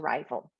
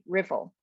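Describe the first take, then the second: First: The first vowel is a long i sound. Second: The first vowel is a short i sound. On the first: The speaker calls it right. "change it to rival" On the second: The speaker calls it wrong. "they might pronounce the first syllable with a short I"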